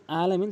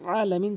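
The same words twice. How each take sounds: First: আলামিন opening on a plain vowel, no ain; wrong alamin. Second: আলামিন opening on a squeezed throat ain; correct alamin. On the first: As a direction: say আলামিন loosely, without throat pressure. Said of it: "অধিকাংশ লোক ... আলামিন বলে". (আলামিন চাপ ছাড়া ভুল উচ্চারণে) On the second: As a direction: press from mid-throat at the start of আলামিন. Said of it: "চাপ দিয়ে বলবেন". (আলামিন হলকের মাঝখান থেকে চাপ দিয়ে) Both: Shown as a demonstration.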